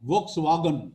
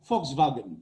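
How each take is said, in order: First: It begins with V, with W in the middle. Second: It begins with F, with V in the middle. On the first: This is how Bengali speakers usually say it. "আমরা বলি ভোক্স ওয়াগন" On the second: This is how German speakers say it. "এটা উচ্চারণ হবে ফক্স ভাগেন"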